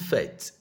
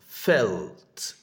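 First: The L sound is left out. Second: The L sound is clearly pronounced. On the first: The speaker calls it wrong. "not fet" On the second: The speaker calls it right.

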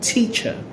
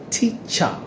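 First: The final vowel is a weak schwa. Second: The final vowel is a full vowel. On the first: The speaker calls it right. "but teacher" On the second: The speaker calls it wrong. "You don't say teacher"

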